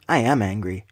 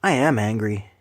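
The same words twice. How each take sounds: First: Real anger. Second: Whispered anger. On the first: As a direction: state I am angry low and firm. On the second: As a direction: hiss I am angry under your breath. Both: Real, not acted. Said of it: "you hear anger in my voice".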